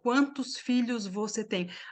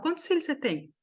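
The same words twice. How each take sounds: First: Each word is said clearly and separately. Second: The words are run together and reduced. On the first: The speaker calls it wrong. "a gente não fala" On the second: The speaker calls it right. "A gente fala"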